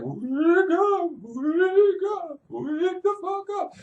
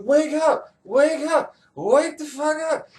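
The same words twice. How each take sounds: First: It is said in a ghostly voice. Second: It is said in a Clytemnestra voice.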